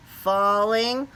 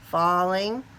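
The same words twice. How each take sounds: The two takes are said the same way.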